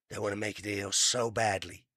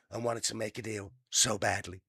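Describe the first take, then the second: First: Trump impression. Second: A hint of a put-on Trump read; lightly voiced boastful president; Trump impression. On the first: Reading the news, mocking Trump's boast. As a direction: do your best bad Trump. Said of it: "I know it's a bad impression". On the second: Reading the news line in a mock Trump voice. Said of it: "a bad impression".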